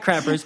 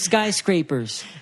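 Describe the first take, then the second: First: There is no s sound after sky. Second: There is an s sound after sky. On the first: The speaker calls it wrong. "instead of saying skyscrapers, she would say sky skycrappers" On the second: The speaker calls it right. "Mom, it's skyscrapers, right?"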